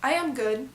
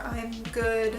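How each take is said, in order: First: I and am are said as separate words. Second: I and am are joined into one syllable. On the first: The speaker calls it wrong. "Saying I am good or I am fine" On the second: The speaker calls it right. "It just sounds a little bit better to say I'm fine or I'm good"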